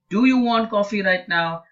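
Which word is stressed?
do. The stress falls on the word do. Asks whether the person wants it at all. "if the stress is on do"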